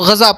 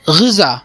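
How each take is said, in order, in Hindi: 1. पहला स्वर 'a' की ध्वनि है। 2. पहला स्वर 'i' की ध्वनि है।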